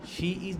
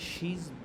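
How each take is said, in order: First: It is said as two separate words. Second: It is said as one contracted syllable.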